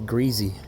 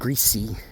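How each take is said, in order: First: The middle consonant is a buzzing z sound. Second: The middle consonant is a hissing s sound. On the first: "every time I'd say greasy" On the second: "instead of greasy"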